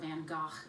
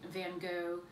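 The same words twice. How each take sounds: First: The name is said closer to its original pronunciation. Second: The name is said the everyday English way.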